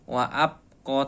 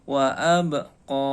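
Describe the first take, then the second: First: The b is held flat without a bounce. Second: The b is released with a bouncing echo. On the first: The speaker calls it wrong. "Tidak boleh dibaca wa abqa" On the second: The speaker calls it right. "ba-nya harus dipantulkan"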